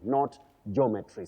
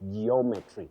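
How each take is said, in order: First: It begins with one syllable, 'joh'. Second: It begins with two syllables, 'jee-oh'. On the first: The speaker calls it wrong. "not jo" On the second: The speaker calls it right. "we have that line geo"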